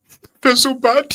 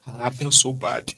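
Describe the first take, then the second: First: Mocking, much higher whiny wail, slow; mock emotional mourner. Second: Said in the usual way. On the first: Mocking a stranger's online grief, high and slow. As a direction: ham up the fake grief, high and drawn out.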